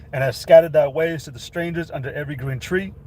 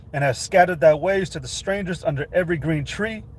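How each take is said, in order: The two takes are said the same way.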